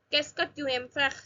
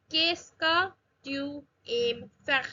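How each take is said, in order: First: Said in the usual way. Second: Slow French, phrase broken into pieces; drawn-out teaching pronunciation with gaps between words; slow demonstration. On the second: Shown as a demonstration. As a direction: model it word by word for learners. Teacher models phrase slowly, then naturally.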